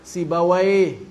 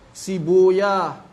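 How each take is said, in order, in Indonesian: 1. Nama itu berakhir dengan bunyi 'a-why'. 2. Nama itu berakhir dengan bunyi 'oy-ah'. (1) "Menurut ahli fikih dibacanya Sibawai" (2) "Kalau menurut Ahlul Hadis dibacanya"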